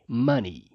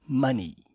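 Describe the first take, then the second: Both takes have the same delivery.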